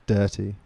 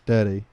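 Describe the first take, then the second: First: It is said seductively, with heavy emphasis. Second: It is said plainly, without seductive emphasis.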